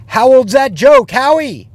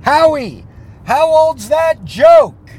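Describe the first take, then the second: First: Loud, high taunting shout; repeated heckle. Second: Loud, high shout across the room; yelled heckle. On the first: Heckler repeating the jab at Howie, loud taunting shout. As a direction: throw the heckle again, louder. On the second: Heckler shouting at comedian Howie from his seat, loud yell. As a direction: heckle the comedian at full volume. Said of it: "I yelled out". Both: Retold or imitated.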